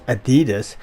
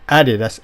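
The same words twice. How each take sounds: First: It is said with an American pronunciation. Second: It is said with a German pronunciation. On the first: "Americans pronounce ... as Adidas" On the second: "the German shoe manufacturer Adidas"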